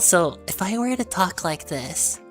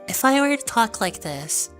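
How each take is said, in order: First: It is said in a lower voice. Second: It is said in a higher voice.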